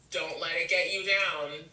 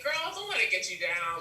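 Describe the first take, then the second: First: It is said in a stern, heavy way. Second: It is said in a light, casual way.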